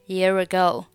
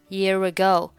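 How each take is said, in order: First: The two words run together, linked. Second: The same.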